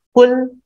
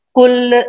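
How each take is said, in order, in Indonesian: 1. Kata itu berakhir tegas pada l, tanpa vokal. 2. Ada bunyi vokal setelah huruf l terakhir. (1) "harus mati" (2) "qul tidak boleh dibaca qul"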